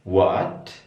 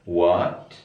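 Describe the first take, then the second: The two takes are said the same way.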